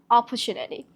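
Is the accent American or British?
British. It is said in a British accent. "if you're gonna use the British accent"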